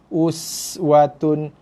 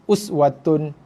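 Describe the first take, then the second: First: The s is pronounced with a clear hiss. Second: The s is pronounced without a clear hiss. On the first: The speaker calls it right. "us ada desir eh... jaga sifat huruf" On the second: The speaker calls it wrong.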